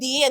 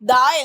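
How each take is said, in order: First: The vowel is a long ee sound. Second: The vowel is a short uh sound. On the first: It comes before a vowel sound. "Vowel സൗണ്ടിന്റെ കൂടെ ആവുമ്പോൾ ദി എന്നും" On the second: It comes before a consonant sound. "Consonant സൗണ്ട്സിന്റെ കൂടെ ആവുമ്പോൾ ദ എന്നുമാണ്"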